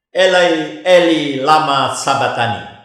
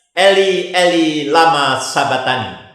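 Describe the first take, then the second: No difference in how they are said.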